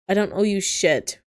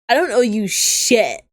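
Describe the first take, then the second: First: It is read without the intended character voice. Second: It is read in the intended character voice. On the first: The speaker calls it wrong. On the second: The speaker calls it right.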